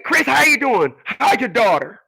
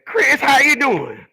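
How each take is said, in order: First: Put-on high, pinched old lady voice; scrunched voice. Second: Put-on high, slow scrunched old lady voice; imitating Mrs Crawley. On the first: Missus Crawley asking Chris about his daughter, scrunched voice. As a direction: squeeze the voice up high like her. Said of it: "she had a very scrunch voice". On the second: Imitating Missus Crawley greeting Chris, high scrunched voice. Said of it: "this is the way she talked".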